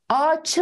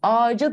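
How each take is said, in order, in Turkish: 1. Son ünsüz sert, ötümsüz bir 'ch' sesidir. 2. Son ünsüz yumuşak, ötümlü bir 'j' sesidir. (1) "Ağaçı mı deriz" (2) "Ağacı diyoruz"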